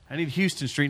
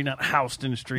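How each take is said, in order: First: Houston Street said HOW-stun; Houston said HOW-stun, New York style. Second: Houston said HYOO-ston, slow; Houston said HYOO-stun, slowly; Houston as city. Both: Shown as a demonstration.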